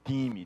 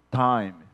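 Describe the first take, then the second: First: It is said with a Portuguese pronunciation. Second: It is said with an English pronunciation. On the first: It means teams. "e não de time, de equipes" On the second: It means a period of time. "que é a ideia de time"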